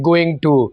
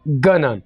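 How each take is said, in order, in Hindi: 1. इसे पूरा, दो अलग शब्दों के रूप में बोला जाता है। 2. यह संक्षिप्त होकर एक छोटे शब्द में मिल जाता है। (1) "सिंपल इंग्लिश में हम इसे बोलते हैं गोइंग टू।" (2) "अंग्रेज इस वर्ड को कैसे बोलते हैं? गना।"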